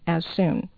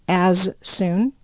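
First: One s sound drops, words run together. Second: Both s sounds are pronounced separately. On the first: "two of the same sound, one drops out" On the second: "instead of as soon"

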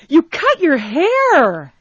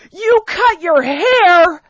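First: The voice sounds surprised. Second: The voice is loud and angry, almost shouting. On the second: "Sorry for shouting. / you're angry"

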